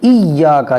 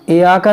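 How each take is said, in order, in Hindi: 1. y की आवाज़ खिंची हुई और दोहरी है। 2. y की आवाज़ छोटी है, खिंची हुई नहीं। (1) "जमा के" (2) "नहीं"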